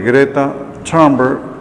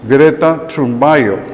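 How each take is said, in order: First: The surname is pronounced the international way. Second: The surname is pronounced the Swedish way. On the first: This is how international presenters say her name. "todos los presentadores internacionales hablan de Greta Thunberg" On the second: This is how she says her own name. "esa es la pronunciación en sueco que ella le da su apellido"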